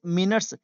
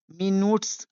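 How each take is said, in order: First: मिनट्स said "mi-nuts", short second vowel; correct pronunciation demo. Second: मिनट्स misread as "mee-noots", long oo; wrong pronunciation demo. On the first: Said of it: "लेकिन इसे मिनट्स". (मिनट्स का सही उच्चारण, छोटा "नट्स") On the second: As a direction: read मिनट्स letter by letter with "noots" at the end. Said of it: "आप लोग पढ़ेंगे, ठीक है, लेकिन इसे". (मिनट्स का गलत उच्चारण, "मीनूट्स") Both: Shown as a demonstration.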